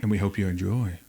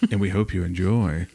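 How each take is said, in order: First: Eerie storyteller hush; like telling a spooky tale; ghost story voice. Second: Spooky, lower and laughing; deliberately eerie, breaking into a laugh; ghost story voice. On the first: Real, not acted. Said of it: "Why did I say it like a ghost story?". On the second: Shown as a demonstration. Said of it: "I'm gonna keep saying it like a ghost story".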